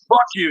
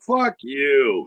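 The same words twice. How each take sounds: First: It is said in an angry, hostile tone. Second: It is said in a playful, friendly tone. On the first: The phrase is meant as an insult. "you're being a bitch" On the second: The phrase is meant as a compliment. "that's because that's a compliment"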